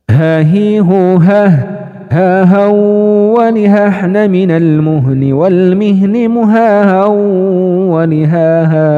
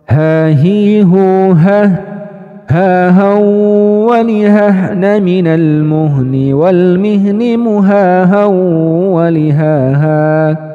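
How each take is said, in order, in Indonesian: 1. Dibaca lebih cepat lagi dibanding sebelumnya. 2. Dibaca sedikit lebih cepat dari standar. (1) "cepatin lagi teman-teman" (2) "kecepatan yang lebih naik satu level"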